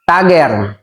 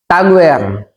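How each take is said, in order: First: The name sounds like 'Tagger'. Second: The name sounds like 'Tagwer'. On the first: "marami pong nagkakamali sa pronunciation" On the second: "Ang iba naman"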